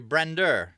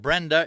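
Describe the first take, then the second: First: The word ends with an added R sound. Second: The word ends in a plain vowel, no R. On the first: "if you add an R" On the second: "instead of Brenda"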